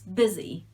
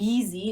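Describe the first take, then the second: First: The first vowel is short, like in it. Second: The first vowel is long, not like it. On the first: The speaker calls it right. "it's busy. Very short" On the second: The speaker calls it wrong. "It's not busy"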